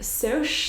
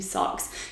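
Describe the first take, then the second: First: The vowel is long, like the start of 'social'. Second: The vowel is short, like in 'socks'. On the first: "pronounced like short for socials" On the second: "I'm just going to stick to Socks"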